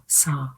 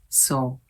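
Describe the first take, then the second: First: The vowel is an open 'ah' sound. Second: The vowel is a rounded 'oh' sound. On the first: The speaker calls it right. "it's saw in American accent" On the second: The speaker calls it wrong. "she says so"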